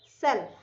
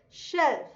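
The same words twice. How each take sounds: First: 'self' starting on a plain s sound; 's' in 'self'. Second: 'shelf' starting on a clear sh; 'sh' in 'shelf'. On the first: Teacher contrasts two words, 'self' with a plain s. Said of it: "तो that is self". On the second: Teacher contrasts two words, 'shelf' with sh. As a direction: begin 'shelf' with a full sh sound. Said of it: "And this one is shelf". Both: Shown as a demonstration.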